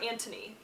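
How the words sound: The name is said the British way. "I think is the British way you pronounce it"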